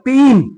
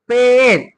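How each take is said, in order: First: The vowel sounds like 'ee'. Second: The vowel sounds like 'eh'. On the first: The speaker calls it wrong. "नाही ए" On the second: The speaker calls it right. "ए"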